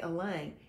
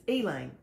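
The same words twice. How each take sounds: First: Said in the usual way. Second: Elaine with a long EE at the front; Southern pronunciation of Elaine. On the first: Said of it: "but we don't say Elaine". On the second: Shown as a demonstration. Speaker gives the family's name for an aunt, EE-laine for Elaine. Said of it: "it's Elaine".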